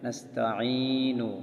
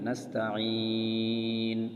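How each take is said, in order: First: The long vowel is held briefly, with final 'u'. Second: The long vowel is stretched out, ending on 'n'. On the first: The word is joined to the next word. "যদি মিলাই পড়ি তাহলে এক আলিফ টান হবে" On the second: The reader stops after this word. "যদি অক্ফ করি তাহলে তিন আলিফ টান হবে"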